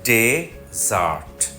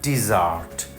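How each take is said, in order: First: The stress is on the first syllable. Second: The stress is on the second syllable. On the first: It is a noun meaning a dry sandy land. "প্রথম সিলেবলের উপর জোর পড়বে বেশি" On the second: It is a verb meaning to abandon. "Verb হলে দ্বিতীয় সিলেবলে উপর জোর দিতে হয়"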